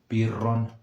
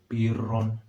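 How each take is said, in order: No difference in how they are said.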